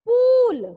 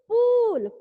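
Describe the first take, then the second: First: The vowel is a long 'oo' sound. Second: The vowel is a long 'oo' sound.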